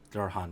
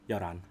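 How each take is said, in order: First: The middle h sound is clearly pronounced. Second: The middle h sound is dropped and linked. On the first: The speaker sounds like a foreigner. "He's trying to say eleven, like a foreigner does" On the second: The speaker sounds fluent in Korean. "if you really want to be re- like extra"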